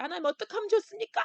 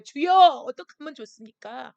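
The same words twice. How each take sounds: First: Fast, high plea rising on 좋습니까; high pleading cry. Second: Loud pleading cry, leaning hard on 주여; crying out to God. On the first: Pastor pleads with God over the crisis, high rising cry. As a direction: ask 하나님 quickly in a high voice, rising on 좋습니까. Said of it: "그렇게 부르짖는다는 거예요". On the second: Pastor cries out to God over the shut-down land, loud plea. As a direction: cry 주여 out at full voice, begging. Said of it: "부르짖는 거예요". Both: Pretend.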